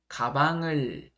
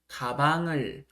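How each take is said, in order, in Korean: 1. ng 소리가 두 번째 음절에 그대로 남습니다. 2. ng 소리가 두 번째 음절에 그대로 남습니다.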